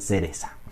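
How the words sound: The c sounds like s, Andalusian style.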